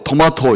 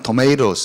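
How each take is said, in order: First: It is said with a British accent. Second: It is said with an American accent.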